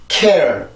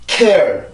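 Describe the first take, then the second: Both takes have the same delivery.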